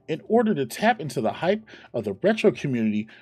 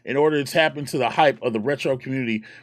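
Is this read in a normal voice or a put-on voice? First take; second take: put-on; normal. First: It is read in an exaggerated put-on voice. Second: It is read in a plain, normal voice.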